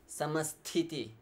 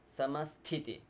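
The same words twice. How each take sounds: The two takes are said the same way.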